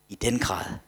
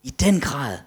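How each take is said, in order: First: Said in the usual way. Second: DEN raised high and loud; emphatic repeat. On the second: Real, not acted. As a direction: punch DEN with a higher, louder voice. Prædikanten gentager svaret med eftertryk. (eftertryk på DEN, højt og kraftigt)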